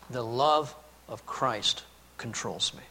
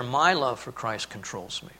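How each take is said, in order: First: "love" leaned on, slow and soft; a slow, tender read with "love" carrying the weight; stress on love. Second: "My" pushed up front, the rest falling away; stress on my. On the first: Preacher quoting Paul to his congregation, stress on "love". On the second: Preacher showing the wrong reading to his congregation, stress on "My". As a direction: hit "My" as the reading he rejects. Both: Shown as a demonstration. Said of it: "And I don't think he means there".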